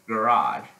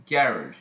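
First: Garage stressed at the end, guh-RAHZH; American pronunciation. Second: Garage stressed up front, GARR-idge; British pronunciation. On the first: Showing viewers American garage, second syllable stressed. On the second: Showing viewers that's British garage, first syllable stressed. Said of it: "that's British". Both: Shown as a demonstration.

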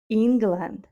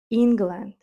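The two takes are said the same way.

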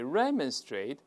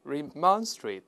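First: "remonstrate" as REM-un-strate; first-syllable stress. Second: "remonstrate" as ri-MON-strate; second-syllable stress. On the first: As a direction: hit REM at the start of "remonstrate". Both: Shown as a demonstration. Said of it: "这两个发音都会听到".

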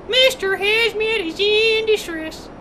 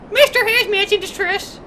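First: Slow mock-alarm announcement; drawn-out distress call. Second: Quicker mock-alarm announcement; mock distress call. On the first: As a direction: stretch out the distress call slowly. Game alarm, drawn-out repeat. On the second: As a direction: announce your own distress briskly. Game alarm, first take.

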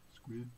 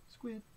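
First: SQUID on a short low note. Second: SQUID on a short high note. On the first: Reader prompts children to say squid, low note. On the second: Reader prompts children to say squid, high note. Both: Pretend.

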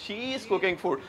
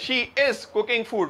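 First: She is slurred into shiz, softer; British-style contraction. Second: Said in the usual way. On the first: Shown as a demonstration. Teacher demonstrates the British blend to the class. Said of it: "वो कह रहे हैं". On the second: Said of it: "हम लोग कह रहे हैं".

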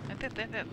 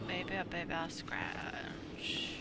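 First: Said in the usual way. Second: Slow soft whisper. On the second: Real, not acted. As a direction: drop to a breathy whisper, slowly. Repeats words then whispers them.

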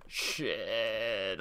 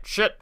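First: Said in the usual way. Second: High, loud curse shout; panicked shout. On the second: Real, not acted. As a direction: yelp the curse in alarm. Near-miss panic while gaming.

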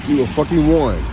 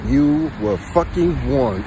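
First: Punchy, loud warning on "warned"; emphatic warning. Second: Drawn-out, very slow "fucking warned"; slow deliberate warning. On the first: Warning his viewers, punched emphatic delivery. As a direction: hit "warned" hard and drop it. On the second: Warning his viewers again, dragged out very slowly. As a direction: stretch every word slowly. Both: Acted.

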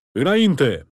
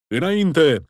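First: Repeated rallying roar; roaring command. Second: Loud rallying roar, pitch up; roaring command. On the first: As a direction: bellow Înainte! again to the wavering men. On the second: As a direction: roar Înainte! to drive the men forward. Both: A narrator's reading. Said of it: "răcni".

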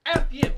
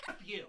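First: Louder, higher angry retort; angry shout. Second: Said in the usual way. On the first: Real, not acted. Vlogger yelling back at the critic who mocked him, angry shout. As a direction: throw it back at him hard.

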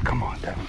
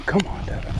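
First: Said in the usual way. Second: Higher eager cheer. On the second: Real, not acted. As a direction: urge him on. Cheering a friend's catch.

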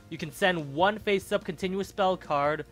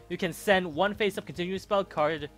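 Both takes have the same delivery.

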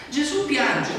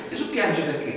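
First: "Gesù piange" pitched high and loud, then let fall; "Gesù piange" launched high and strong before dropping; stressed opener. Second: Said in the usual way. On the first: Shown as a demonstration. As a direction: ring out "Gesù piange" as a proclamation.

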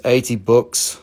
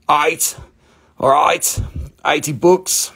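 First: Said in the usual way. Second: Higher-pitched put-on Australian accent; playful Australian accent, pitched up. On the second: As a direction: call it out like a mock Aussie. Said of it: "Where's all my Australian friends?".

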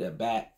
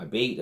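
First: "a bat" with the short vowel of cat; alternative name pronunciation. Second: Abate said like "a bait"; unsure name pronunciation. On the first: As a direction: say "a bat" to rhyme with "hat". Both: Real, not acted. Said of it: "I might be saying it wrong".

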